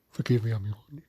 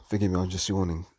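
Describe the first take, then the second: First: Yawning. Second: Said in the usual way. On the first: Real, not acted.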